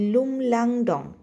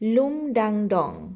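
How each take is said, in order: First: The second syllable starts with an l sound. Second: The second syllable starts with a d sound. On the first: The speaker calls it right. "হবে লুমলাংডং" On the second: The speaker calls it wrong. "উচ্চারণটা বোধহয় আমি ভুল করলাম"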